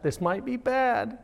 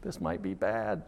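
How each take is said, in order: First: "This might be bad" jumps higher, slow and alarmed; slow and higher, nerves rising; higher nervous repeat. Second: "This might be bad" slow and soft; slow and hushed, dreading the door; low worried murmur. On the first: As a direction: say it again, higher and more worried. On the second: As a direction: mutter it under your breath. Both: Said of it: "you're thinking".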